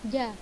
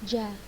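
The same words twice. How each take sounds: First: The consonant is palatal, without the ch-like quality. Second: The consonant is a plain Indonesian-style j. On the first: The speaker calls it right. "lidah bagian tengah menempel pada langit-langit bagian atas" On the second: The speaker calls it wrong. "seperti huruf J Indonesia"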